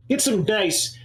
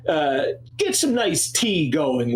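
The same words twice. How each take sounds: First: Haughty Necromundan noble. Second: Slow haughty Necromundan noble. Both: Acted. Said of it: "I hate Necromundan accent".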